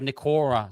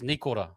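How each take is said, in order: First: The middle syllable carries extra stress. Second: The syllables are stressed evenly throughout. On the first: The speaker calls it wrong. "instead of Nikora. So it's not no emphasis on the or" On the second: The speaker calls it right. "It's just Nikora"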